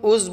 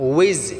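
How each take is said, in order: First: The syllable has a 'u' vowel and no glide. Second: The syllable begins with a 'w' glide before 'i'. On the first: The speaker calls it wrong. "উজ বললে হবে না" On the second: The speaker calls it right. "উইজ rock"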